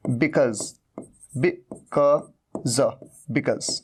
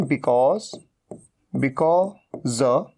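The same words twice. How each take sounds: First: Because with a short schwa, bi-KUZ; second variant of because. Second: Because with a long 'aw', bi-KAWZ; first variant of because. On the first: Teacher showing the other way, "bi-kuz". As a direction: say because as "bi-kuz", broken into pieces. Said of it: "या फिर". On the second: Teacher showing one accepted way, "bi-kawz". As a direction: say because as "bi-kawz", split slowly. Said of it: "इसे आप because भी कह सकते हैं". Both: Shown as a demonstration.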